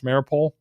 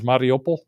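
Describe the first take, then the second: First: The name is said in the Western way. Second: The name is said in the Russian-based way. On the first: "The Western pronunciation" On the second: "The actual Americanization from a Russian"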